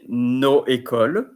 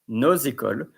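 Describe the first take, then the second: First: The words are said without a linking z. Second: The words are joined by a linking z. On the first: The speaker calls it wrong. "you don't say no école" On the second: The speaker calls it right. "you say nos écoles, z"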